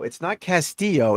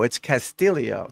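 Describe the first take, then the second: First: Castillo said the spelled Spanish way, double L as a Y; the misreading of Castillo, L sounded out; wrong Castillo. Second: Castillo said kas-TEE-yo, the L pronounced as a Y; right Castillo. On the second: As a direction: give Castillo its Spanish sound. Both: Shown as a demonstration.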